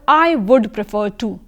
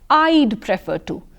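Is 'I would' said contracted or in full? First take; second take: full; contracted. First: The words 'I would' are said in full. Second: The words 'I would' are contracted to 'I'd'. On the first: The speaker calls it wrong. "you don't read it like this" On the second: The speaker calls it right. "You read them as"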